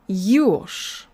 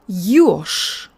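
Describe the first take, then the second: First: The final consonant becomes voiceless, like sh. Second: The final consonant becomes voiceless, like sh.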